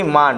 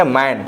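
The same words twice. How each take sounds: First: मान with an open "aa" vowel; wrong long-aa reading. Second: मैन with a front "ae" vowel; short-a pronunciation. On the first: Teacher showing the wrong reading, aa vowel. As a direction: say मान as the mistaken aa version. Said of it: "पढ़ेंगे तो गलत हो जाएगा". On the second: Teacher reading M-A-N for students, correct vowel. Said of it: "ये सही है". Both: Shown as a demonstration.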